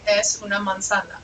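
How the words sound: It is said with statement intonation. The speaker states that it is an apple. "I'm telling you this is an apple"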